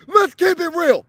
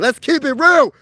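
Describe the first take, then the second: First: Much higher, strained cry; worked-up squeal. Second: Loud, higher exclamation; really letting it rip; worked-up shout. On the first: Fan venting about the Phillies' loss, squealing high and strained. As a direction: voice cracks up into a squeak. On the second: Fan venting about the Phillies' loss, loud and worked up. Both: Real, not acted. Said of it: "I'm a little worked up".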